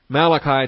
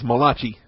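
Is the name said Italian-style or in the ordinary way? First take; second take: ordinary; Italian-style. First: The name is said in the ordinary English way. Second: The name is said with an Italian-sounding pronunciation.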